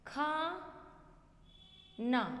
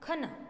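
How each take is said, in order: First: The first vowel is long, like 'khaa'. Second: The first vowel is short, like 'kha'. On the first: The speaker calls it right. "अभी मैंने बोला खा ना, तो ये क्या है, हमारी शुद्ध वर्तनी।" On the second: The speaker calls it wrong. "यदि हम बोलेंगे ख ना"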